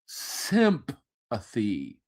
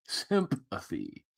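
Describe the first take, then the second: First: "Sympathy" stretched slow and low; slow drawn out. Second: "Sympathy" repeated much softer, fading; soft echo. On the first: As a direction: drag out "Sympathy" with disdain. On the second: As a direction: let "Sympathy" die away to a hush. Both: Shown as a demonstration.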